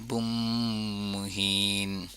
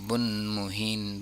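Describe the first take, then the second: First: The n merges into an m sound before muhin. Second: The word ends in an n sound before muhin.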